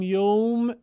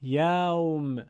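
First: «یوم» with Persian o, as "yowm"; Persian-accented mispronunciation. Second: «یوم» with open Arabic a, "ya-wm"; Arabic pronunciation. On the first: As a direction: round the vowel of «یوم» into a long Persian "yoom". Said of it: "اگه بگیم یوم غلط هست". («یوم» با لهجهٔ فارسی، یُوم) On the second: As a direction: draw out «یوم» slowly with a clear a before w. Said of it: "باید بگیم". («یوم» با فتحهٔ عربی، یَوم) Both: Shown as a demonstration.

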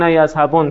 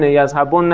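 First: "یذهبن" with o, closed on a single n; light emphatic nun. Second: "یذهبن" with o before a doubled n plus short a; heavy emphatic nun. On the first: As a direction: say "یذهبن" as yazhabon, stopping on the n. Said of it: "هم به خفیف". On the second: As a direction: say "یذهبن" as yazhabonna, holding the double n. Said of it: "صرف کنید هم به ثقیله". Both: Shown as a demonstration.

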